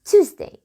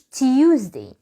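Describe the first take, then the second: First: The first syllable has no y glide: too. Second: The first syllable has a y glide: tyoo. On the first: The speaker calls it right. "اسمها Tuesday" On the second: The speaker calls it wrong. "اليو اللي انت بتنطقه ده تنساه"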